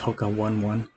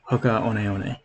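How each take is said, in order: First: 'One One' is said like the number one. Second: 'One One' is not said like the number. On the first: This is the name as most people say it. "like you're saying the number" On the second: This is the name as originally intended. "how we originally intended our name to be pronounced"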